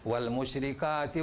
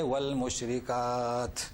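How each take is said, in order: First: The word runs straight on without a stop. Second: The word ends with a full stop. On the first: The speaker calls it wrong. "इस तरीके से पढ़ते हैं" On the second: The speaker calls it right. "पढ़ना क्या चाहे?"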